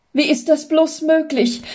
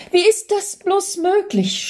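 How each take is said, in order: First: Stammering in disbelief. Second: The repeat climbs even higher with wonder; stammering, more overwhelmed. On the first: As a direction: stammer it as if witnessing a miracle. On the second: Husband repeats his disbelief at his wife's return, higher still. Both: Acted. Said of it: "stammelte Jürgen immer wieder".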